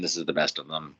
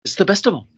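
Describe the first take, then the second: First: Said in the usual way. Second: High, squealed rapper voice. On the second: Retold or imitated. Praising the album to co-hosts, in high mimicked rapper voice. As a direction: repeat it as a high-pitched comic rapper. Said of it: "Okay, that's three".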